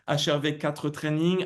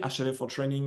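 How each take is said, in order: First: The name is pronounced with French sounds. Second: The name is pronounced with English sounds. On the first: "si je la prononce en français" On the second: "en anglais"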